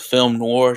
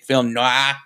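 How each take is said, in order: First: It is said with a plain English accent. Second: It is said with a French accent.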